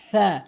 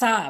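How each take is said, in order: First: The tongue tip touches the teeth, th-like. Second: The consonant is a plain s sound. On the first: The speaker calls it right. "জিহ্বার আগাটা নিয়ে সামনে দুটি দাঁতের আগাতে লাগাবেন" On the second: The speaker calls it wrong. "ভুল উচ্চারণ"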